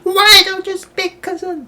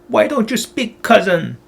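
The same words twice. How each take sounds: First: It is shrieked loudly at a very high pitch. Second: It is said in a normal reading voice.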